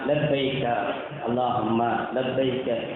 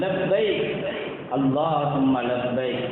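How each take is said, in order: First: It is said casually, like halting rote reading. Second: It is said fervently, with careful pronunciation. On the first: The reciter feels nothing while saying it. The speaker calls it wrong. "ஒரு சர்வ சாதாரணமாக ஏதோ ஒரு புக்கை படிக்க தெரியாதவர்கள் படிப்பது போன்று" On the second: The reciter feels the meaning deeply. The speaker calls it right. "அதனுடைய உச்சரிப்போடு அதனுடைய ஆர்வத்தோடு ஆர்ப்பரிப்போடு"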